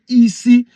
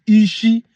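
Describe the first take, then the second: First: "Isi" with a plain s; dialect pronunciation Isi. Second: "Ishi" with a hushing sh; dialect pronunciation Ishi. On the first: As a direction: show the variant "Isi", s rather than sh. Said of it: "your tongue pronunciation say Isi". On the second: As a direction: show the variant "Ishi", sh in the middle. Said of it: "your tongue pronunciation now is Ishi". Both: Shown as a demonstration.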